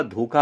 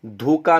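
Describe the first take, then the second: First: धोखा with aspirated 'kh', dhokha; correct pronunciation. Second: धोखा with unaspirated 'k', dhoka; wrong pronunciation. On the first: Teacher correcting the error, धोखा as dhokha. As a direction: say धोखा with a puff of breath on 'kh'. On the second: Teacher showing a common error, धोखा as dhoka. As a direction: say धोखा with a plain 'k', no breath after it. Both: Shown as a demonstration. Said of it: "धोखा होता है".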